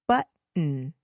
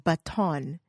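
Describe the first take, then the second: First: The middle T is dropped. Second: The middle T is clearly pronounced. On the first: The speaker calls it right. "Notice I don't really pronounce that T" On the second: The speaker calls it wrong. "Those are strange sounding words"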